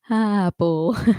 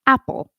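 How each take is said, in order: First: The word begins gently, with no throat catch. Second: The word begins with a sharp catch in the throat. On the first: The speaker calls it wrong. "You don't usually say apple" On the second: The speaker calls it right. "you say apple"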